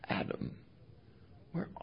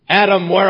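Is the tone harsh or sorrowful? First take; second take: sorrowful; harsh. First: The voice sounds sorrowful and pleading. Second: The voice sounds harsh and commanding. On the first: God is grieving like a heartbroken father. The speaker calls it right. "you will hear it as the sob of a heartbroken father" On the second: God is demanding like an officer arresting a criminal. The speaker calls it wrong. "that tone of voice of an arresting officer holding the gun on the bank robber"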